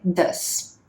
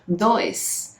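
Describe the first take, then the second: First: The vowel is a short 'uh' sound. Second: The vowel is an 'oi' diphthong, like Portuguese 'dois'. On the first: The speaker calls it right. "na verdade a pronúncia correta é does" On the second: The speaker calls it wrong. "A nossa pronúncia seria dois"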